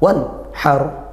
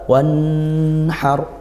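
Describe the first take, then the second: First: The n is cut off abruptly. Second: The n flows on into a nasal hum. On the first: "tidak dia dihentak" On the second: "terlalu ngalir, terlalu sampai dengung"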